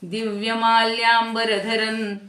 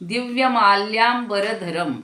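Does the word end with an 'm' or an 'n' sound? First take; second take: n; m. First: The final nasal sounds like 'n'. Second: The final nasal sounds like 'm'. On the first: "आपण पुढे द आल्यामुळं तिथे नचा उच्चार करतो" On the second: "मूळ अनुस्वाराचा उच्चार म असाच असतो"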